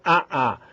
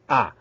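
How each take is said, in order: First: Two separate a vowels are pronounced. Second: The two a vowels merge into one. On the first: The speaker calls it wrong. "não é A A" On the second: The speaker calls it right. "Você fez um som só"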